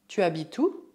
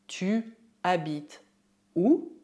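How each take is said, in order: First: Said in the usual way. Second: Each word set apart by pauses; slow dictation with a rising final word. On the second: Shown as a demonstration. Teacher shows informal word order, slow word by word.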